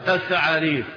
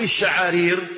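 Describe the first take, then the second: First: The word begins with a 'th' sound. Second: The word begins with a 'sh' sound. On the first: This is the form of someone who lost his teeth. The speaker calls it wrong. "نطقها ليه؟ الثعارير" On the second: This is the original form of the word. The speaker calls it right. "فبدل ما يقول الشعارير"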